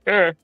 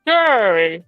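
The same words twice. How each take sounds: First: It is said flatly, without excitement. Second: It is said with clear excitement.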